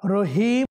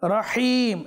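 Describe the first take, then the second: First: The 'h' is a light, breathy sound. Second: The 'h' is a tight, throaty sound. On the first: The speaker calls it wrong. "হা এর জায়গার মধ্যে হা হয়ে যাচ্ছে" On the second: The speaker calls it right. "হা সুস্পষ্ট হবে"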